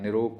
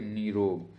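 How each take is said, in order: First: निरोग with a short first i; wrong pronunciation. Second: निरोग with a long first ee; correct pronunciation. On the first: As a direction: clip नि in निरोग. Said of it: "कोई शब्द नहीं है". (निरोग में छोटी इ) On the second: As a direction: stretch the first vowel of निरोग. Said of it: "निरोग कोई शब्द नहीं". (निरोग में लंबी ई) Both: Shown as a demonstration.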